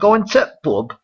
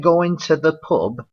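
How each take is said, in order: First: The word 'the' is cut out. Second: The word 'the' is said in full. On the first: "they usually cut it" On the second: "instead of saying"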